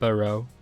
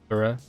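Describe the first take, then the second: First: The last syllable ends in a full 'oh' vowel. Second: The last syllable ends in a weak 'uh' vowel. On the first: The speaker calls it wrong. "It's not Burrow" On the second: The speaker calls it right. "It's Borough"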